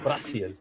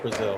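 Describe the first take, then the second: First: The middle consonant is a hissing S sound. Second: The middle consonant is a buzzing Z sound.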